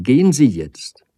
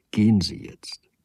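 First: Louder, urgent send-off; a distraught cry telling him to go. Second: Breathless whispered send-off; a whispered plea to leave. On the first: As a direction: drive him away with a raised voice. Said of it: "rief sie". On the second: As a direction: barely voice it, letting him go. Soft parting words to suitor. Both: A narrator's reading.

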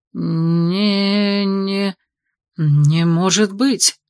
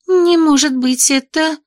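First: Breathless disbelief. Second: High, stunned gasp of disbelief; shocked disbelief. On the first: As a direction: exhale it in awe. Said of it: "смог выдохнуть Ланиэль". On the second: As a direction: cannot believe her eyes. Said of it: "Бри ошарашенно глянула". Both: A narrator's reading.

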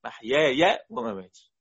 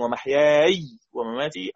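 First: محياي ends with open -yāya, maħyāya; slow chanted محياي with a fatha on the last yā; fatha reading. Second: ومحياي ends in a still yā, wemaħyāy, long vowel held; slow chanted ومحياي with silent final yā; sukun reading. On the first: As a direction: recite محياي voicing a final -ya. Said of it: "أو". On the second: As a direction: recite ومحياي ending on a stretched -āy. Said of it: "ممكن أن يقرأ بالسكون". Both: Shown as a demonstration.

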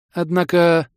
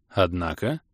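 First: Higher, louder, drawn-in hook; leading hint. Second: Lower, softer prompting question; questioning echo. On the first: Gnome teases the visitor with news, leading. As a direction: raise the word to hint at more. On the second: Visitor prompts the gnome to go on, questioning. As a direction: echo it back softly as a question. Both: A narrator's reading.

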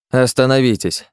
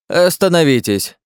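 First: Остановитесь called again, a little less high; the old man repeating his order to the guards; repeated shout. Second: High, slow, full shout of Остановитесь; an old man shouting from his doorway to stop the guards; loud shout. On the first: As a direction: call them off once more, firmly. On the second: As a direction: stop them dead with a cry. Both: A narrator's reading. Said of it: "крикнул выскочивший на улицу".

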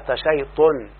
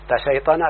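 First: تشيطن said "tashaytun", with u after the t; damma on fourth letter. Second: تشيطن said "tashaytana", open a endings; verb form. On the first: Teacher showing the damma rule, تشيطن as "tashaytun". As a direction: say تشيطن as ta-SHAY-tun, falling. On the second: Teacher citing the verb before its noun, تشيطن as "tashaytana". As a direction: say تشيطن as ta-SHAY-ta-na, rising. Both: Shown as a demonstration. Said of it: "الحرف الرابع يضم".

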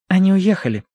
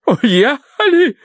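First: Higher, unhurried woman's voice; matter-of-fact young woman. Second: High, drawn-out shocked echo; aghast. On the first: Young woman tells the family they left, matter-of-fact. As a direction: state the news simply. Verity gives the news. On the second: Wife hears the guests have left, aghast. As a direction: repeat it in stunned horror. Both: A narrator's reading.

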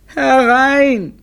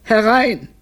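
First: Louder, long-drawn high wail; hammed-up, stretched cry of suffering. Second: High, pained "come in"; plaintive, raised call; suffering voice. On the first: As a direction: wail the call out in agony. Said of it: "mit leidender Stimme". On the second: Acted. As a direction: call out as if in pain. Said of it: "sagte Brunelli mit leidender Stimme".

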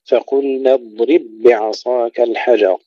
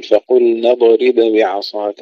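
First: اضرب بعصاك with held ض and merged double b; fuse the ب sounds in اضرب بعصاك; no bounce. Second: اضرب بعصاك with echo on ض and ب; wrongly bounced letters. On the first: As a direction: recite اضرب بعصاك smoothly, ض unbroken by any vowel. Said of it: "لا نقلقل لا الضاد ولا الباء". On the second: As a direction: mistaken recitation, little vowels after ض and ب in اضرب بعصاك. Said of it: "لا نقول". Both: Shown as a demonstration.

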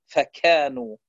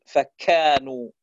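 First: فكانوا with a breathy, puffed kaf; wrong aspirated kaf. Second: فكانوا slowly, kaf with no strong puff of air; correct moving kaf. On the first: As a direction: push air out on the kaf of فكانوا. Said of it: "كورت". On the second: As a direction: say فكانوا with an even, unaspirated kaf. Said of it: "فتقول". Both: Shown as a demonstration.

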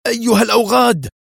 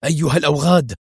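First: Much higher, louder screamed curse; the curse explodes into a shriek; furious scream. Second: A rough angry call, still held back; first curse, building toward a scream; angry cry. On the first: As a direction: scream it out as the car spins. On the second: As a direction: start cursing, not yet at full volume. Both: A narrator's reading. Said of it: "وهو يصرخ".

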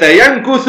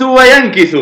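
First: ينكث said "yankuthu", u after the kaf; damma on the kaf. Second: وينكث said "wa-yankithu", i after the kaf; kasra on the kaf. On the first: Teacher giving an example's first form, ينكث as "yankuthu". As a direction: say ينكث slowly with a u: yan-KU-thu. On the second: Teacher giving an example's second form, وينكث as "wa-yankithu". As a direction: say وينكث slowly with an i: wa-yan-KI-thu. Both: Shown as a demonstration. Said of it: "الضم والكسر".

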